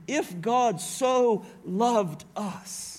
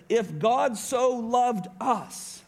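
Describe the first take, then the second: First: "so" stretched and stressed in "If God so loved us"; slow, leaning on "so". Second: "If God so loved us" read slowly, weight on "God"; preacher lingering on the verse; slow emphatic reading. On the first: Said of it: "inspires John to put a "so" in here". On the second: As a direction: savour each word of the verse. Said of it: "Notice what it says". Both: Shown as a demonstration.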